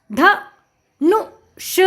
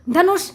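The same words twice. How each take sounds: First: ध, नु, ष as three separate sounds; sounding out. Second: Said in the usual way. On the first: Shown as a demonstration. Teacher spelling out a word for children, sound by sound. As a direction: break it up with pauses: ध... नु... ष. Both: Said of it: "उच्चारण करके पढ़ लिया".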